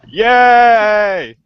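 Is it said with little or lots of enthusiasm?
lots. It is said with lots of enthusiasm.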